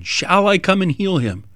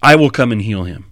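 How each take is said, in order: First: "Shall I come and heal him?" said higher, as an asking question; higher, inquiring question; read as a question. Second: "I will come and heal him" said as a flat falling statement; firm declarative; read as a statement. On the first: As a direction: offer it as a gentle question. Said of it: "render it a question". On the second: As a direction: state it plainly, no question. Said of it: "have what Jesus says here as a statement". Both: Shown as a demonstration.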